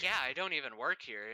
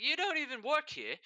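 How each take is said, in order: First: Said in the usual way. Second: Put-on high, stunned Jamaican-accented question; a light Jamaican accent, surprised. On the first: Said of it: "I did that voice". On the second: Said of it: "Jamaican accent".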